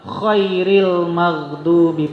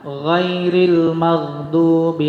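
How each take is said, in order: First: The first word begins with a voiceless kh. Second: The first word begins with a voiced gh. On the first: The best of those who earned anger. The speaker calls it wrong. "Salah ngucap imamnya, khairil maghdubi pakai kho" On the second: Not the path of those who earned anger. The speaker calls it right. "kalau ghairil pakai ghain"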